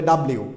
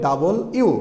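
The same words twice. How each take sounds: First: "ডাব্লিউ" run together as dab-liu; mistaken W name. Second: "ডাবল ইউ" as two words, double and you; correct W name. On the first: Teacher quotes what many learned as children, squashed "ডাব্লিউ". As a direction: say "ডাব্লিউ" squashed, without a full "double". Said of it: "এটা ডাব্লিউ হবে না". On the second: Teacher corrects the letter's name, full "ডাবল ইউ". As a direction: give "ডাবল ইউ" its full da-bol before iu. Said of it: "এটা হবে ডাবল ইউ". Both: Shown as a demonstration.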